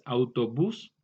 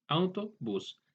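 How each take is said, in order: First: Said in the usual way. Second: "autobús" broken into its parts, auto and bús; split into parts. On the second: Shown as a demonstration. Teacher showing how a compound word is formed, "autobús" said in parts. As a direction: separate the two words inside "autobús". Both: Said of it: "al compuesto".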